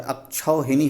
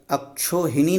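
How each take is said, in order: First: अक्षौहिणी with the au diphthong, akshauhini; correct form said. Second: अक्षोहिणी with a plain o vowel, akshohini; wrong form said. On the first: Teacher to students, giving the correct vowel: अक्षौहिणी with au. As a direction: say अक्षौहिणी with au on क्ष. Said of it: "अक्षौहिणी होता है". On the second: Teacher to students, voicing the wrong vowel: अक्षोहिणी with plain o. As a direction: say अक्षोहिणी with o on क्ष, as the mistake. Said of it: "अक्षोहिणी नहीं होता है". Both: Shown as a demonstration.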